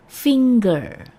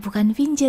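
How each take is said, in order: First: The stress is on the first syllable. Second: The stress is on the second syllable. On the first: The speaker calls it right. "dengan penekanan pada suku kata pertama" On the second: The speaker calls it wrong. "bukan finger ya kak"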